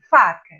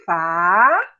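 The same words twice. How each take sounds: First: Said in the usual way. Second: "faca" very slow, both syllables held long. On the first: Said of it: "Então, por exemplo, aqui". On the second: Shown as a demonstration. Teacher showing children where it's written, "faca" syllable by syllable. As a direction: stretch "faca" into two separate long syllables. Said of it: "vamos ler junto com a tia [name]".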